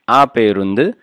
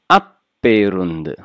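First: The p sound is single and short. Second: The p sound is doubled and held long. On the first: The speaker calls it wrong. "not aperundu" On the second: The speaker calls it right. "must be doubled"

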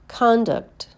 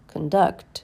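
First: The stress is on the first syllable. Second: The stress is on the second syllable. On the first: It is a noun. "First, you hear the noun" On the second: It is a verb. "and then the verb"

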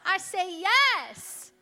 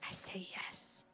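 First: It is spoken aloud. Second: It is whispered softly.

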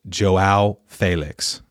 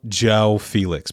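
First: The first name sounds like Portuguese 'Joao'. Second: The first name sounds like English 'Joe'. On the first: The speaker calls it right. "It's Joao Felix" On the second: The speaker calls it wrong. "It's not Joe Felix"

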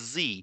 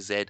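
First: The letter is said in an American accent. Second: The letter is said in the speaker's own accent.

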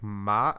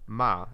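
First: The pitch stays level throughout. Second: The pitch falls through the syllable. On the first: "which is like flat" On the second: "like the goes down"

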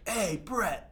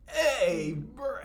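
First: It is said smoothly, without stuttering. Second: It is said with a stutter.

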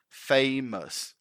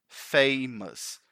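No difference in how they are said.

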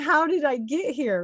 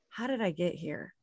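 First: It sounds delighted and amazed. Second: It sounds dismayed and regretful.

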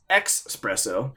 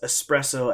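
First: It is said with a ks sound. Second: It is said with a plain s sound. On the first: The speaker calls it wrong. "pronounce espresso as expresso" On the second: The speaker calls it right. "when people pronounce espresso as"

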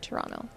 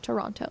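First: It is pronounced the way Canadians say it. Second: It is pronounced the way non-Canadians say it. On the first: The speaker is from Canada. The speaker calls it right. "We say Toronto" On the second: The speaker is not from Canada. The speaker calls it wrong. "No one in Canada says Toronto"

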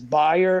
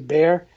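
First: The name is said with a German pronunciation. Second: The name is said with an English pronunciation. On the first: This is how the company's home country says it. "I believe it's pronounced as Bayer" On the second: This is how it is said locally. "as opposed to the way we say Bayer"

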